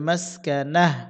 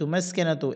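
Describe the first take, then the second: First: The word ends with a soft 'h' sound. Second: The word ends with a 'tu' syllable. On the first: The reader stops at this word. "অক্ফের সময় গোলতা হা হবে উচ্চারণ হবে মাসকানা" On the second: The reading continues without a stop. "তা পেশতু মাসকানা তো"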